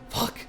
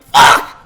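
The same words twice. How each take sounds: First: It is muttered quietly under the breath. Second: It is said loudly with a guttural, scared voice. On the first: She is trying not to be heard. "just kind of like under her breath" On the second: She is scared and lets it out. "a really guttural one"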